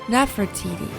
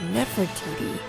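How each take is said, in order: First: The name has reconstructed ancient vowels. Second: The name has its modern scholarly vowels. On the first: This may be how it was said in her time. "could have been pronounced as Nefertiti at the time" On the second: This is how scholars say it today. "the modern Egyptological pronunciation renders her name as"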